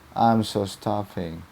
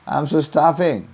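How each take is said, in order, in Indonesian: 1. Terdengar memohon, seperti meminta tolong. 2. Terdengar marah, seperti memarahi dan memerintah. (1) "satu saya eh, ingin banget dibantu" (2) "yang kedua itu saya nyuruh tuh marah-marah ngomel"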